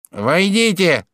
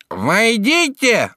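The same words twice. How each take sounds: First: High nasal call; nasal shout. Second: High, loud, long-drawn nasal call; louder nasal shout. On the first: Judge calls visitors in through door, nasal shout. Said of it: "крикнул гнусавый голос". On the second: Judge calls second time through door, loud nasal shout. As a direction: stretch it out, loud and through the nose. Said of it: "только погромче". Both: A narrator's reading.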